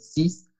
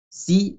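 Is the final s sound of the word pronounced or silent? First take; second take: pronounced; silent. First: The word ends with an audible s sound. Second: The word ends on a vowel, with no s. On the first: The number stands alone. "que aprendieron que se dice sis" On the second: The number comes before a noun starting with a consonant. "de manera que no pronunciamos la X"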